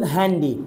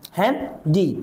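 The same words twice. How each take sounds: First: Said in the usual way. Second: হ্যান্ডি broken into হ্যান and ডি; two separate beats on হ্যান্ডি; syllable by syllable. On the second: Shown as a demonstration. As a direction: leave a gap before the ডি of হ্যান্ডি. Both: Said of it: "কয়েকবার আমাকে থামতে হয়".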